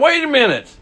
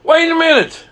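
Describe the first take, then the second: First: High, incredulous "Wait a minute"; first high "Wait a minute", stopping the excuse; incredulous stop. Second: Higher, louder "Wait a minute", building disbelief; second "Wait a minute" pushed higher and louder; louder incredulous stop. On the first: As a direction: halt him in disbelief. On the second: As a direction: stop him even harder, incredulous. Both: Retold or imitated. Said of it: "I'm thinking in my mind".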